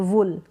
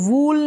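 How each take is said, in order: First: The vowel is a short oo sound. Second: The vowel is a long oo sound. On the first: The speaker calls it right. "छोटे ऊ के रूप में" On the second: The speaker calls it wrong. "इसको वूल नहीं पढ़ेंगे"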